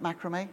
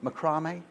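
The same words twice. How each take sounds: First: "macrame" said MACK-ruh-may; "macrame" with MACK up front; first-syllable macrame. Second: "Macrame" said muh-CRAH-may; "Macrame" as a question, with CRAH in the middle; second-syllable macrame. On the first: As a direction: stress the first syllable of "macrame", short a as in mat. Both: Shown as a demonstration. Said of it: "I don't know if you call it".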